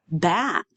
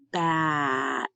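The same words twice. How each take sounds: First: BAT said quickly as one word; said faster. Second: BAT drawn out slowly, final t separate; stretched out. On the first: Teacher showing students the finished word, BAT said faster. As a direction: bring BAT together, short and whole. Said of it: "then you can say it faster". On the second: Teacher blending sounds for students, BAT slowly stretched out. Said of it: "say it slowly and stretched out". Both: Shown as a demonstration.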